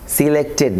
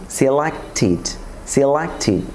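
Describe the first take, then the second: First: "সিলেক্টেড" ending in "-ted"; wrong "সিলেক্টেড". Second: "সিলেক্টেড" as "silak-tid"; corrected "সিলেক্টেড". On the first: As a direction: say "সিলেক্টেড" as "silekted" with e. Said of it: "সিলেক্টেড না". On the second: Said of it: "টিডে পরিণত করব". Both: Shown as a demonstration.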